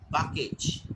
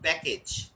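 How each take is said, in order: First: "package" said "pah-kage"; Indian pronunciation. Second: "package" with short "a" as in "cat"; standard pronunciation. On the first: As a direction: open "ah" in the first syllable of "package". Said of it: "they pronounce package". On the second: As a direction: say "package" as "pack-age". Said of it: "not package". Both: Shown as a demonstration.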